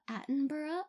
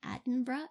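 First: "Attenborough" as AT-en-bur-uh, full ending, questioning; drawn-out "Attenborough" ending. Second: "Attenborough" as AD-en-bruh, ending squeezed, questioning; two-syllable-ending "Attenborough". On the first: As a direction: try "Attenborough" with -bur-uh in two syllables, rising. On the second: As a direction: try "Attenborough" with a short -bruh ending, rising. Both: Shown as a demonstration.

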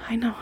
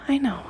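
The two takes are said the same way.

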